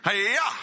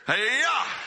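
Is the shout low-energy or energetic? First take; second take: low-energy; energetic. First: It is shouted with modest energy. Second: It is shouted with strong energy.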